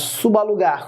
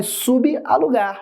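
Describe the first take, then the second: First: "subalugar" run together as su-ba-lugar; prefixo ligado. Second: "Subalugar" slowly as subi, alugar; prefixo separado. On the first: Shown as a demonstration. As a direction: link the b of "subalugar" straight to the a. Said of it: "Olha a palavra de baixo". ("subalugar" ligado: su-ba-lugar) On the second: Acted. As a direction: cut "Subalugar" after the prefix, pitched up. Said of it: "Ah, Cadu, é mole". ("Subalugar" pausado: subi, alugar)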